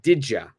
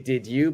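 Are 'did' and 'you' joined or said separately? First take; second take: joined; separately. First: The two words are joined with a j sound. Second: The two words are said separately. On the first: The speaker calls it right. "Please say didja" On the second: The speaker calls it wrong. "Don't say did you"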